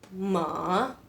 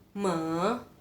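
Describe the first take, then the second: Both takes have the same delivery.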